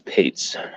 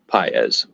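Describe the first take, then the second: First: The surname is said as 'Pates'. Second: The surname is said as 'Paez'. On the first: This is how announcers who know the name say it. The speaker calls it right. "but I think it's Pates" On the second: This is how many people say it. The speaker calls it wrong. "I've heard a lot of people pronounce it as uh"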